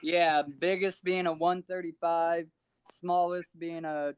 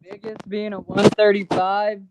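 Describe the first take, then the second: First: Muffled distant phone voice; faint, far from mic. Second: Said up louder to be heard; louder repeat. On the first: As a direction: speak away from the phone. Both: Real, not acted. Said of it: "Can't hear you".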